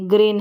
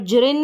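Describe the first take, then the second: First: The word starts with a g sound. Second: The word starts with a j sound. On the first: The speaker calls it right. "ग्रीन में हमने ग पढ़ा" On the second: The speaker calls it wrong. "यहाँ पर जरिन नहीं पढ़ेंगे"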